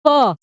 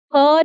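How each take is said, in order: First: "फ" as English F, "fa"; correct sound. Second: "फ" as puffed "pha", lips popping like P; mispronunciation. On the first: Teacher modelling the right sound, "फ" said as "fa". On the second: Teacher rejecting the wrong sound, "फ" said as puffed "pha". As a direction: say "फ" as aspirated P. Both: Shown as a demonstration. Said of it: "फ नहीं".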